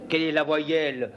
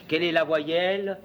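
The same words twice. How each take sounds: The two takes are said the same way.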